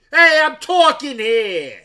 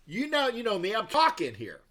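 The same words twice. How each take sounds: First: Loud, high, slow yelled "I'm talking here"; New York yell. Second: Said in the usual way. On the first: Shown as a demonstration. Streamer trying the line again as the impression, yelled. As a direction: shout "talking" like a cab-dodging New Yorker. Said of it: "that's my impersonation".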